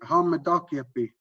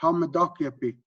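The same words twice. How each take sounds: Both takes have the same delivery.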